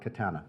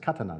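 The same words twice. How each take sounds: First: It is said with English pronunciation. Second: It is said with Japanese pronunciation. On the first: The speaker calls it wrong. "not katana" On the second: The speaker calls it right. "in Japanese, it's pronounced katana"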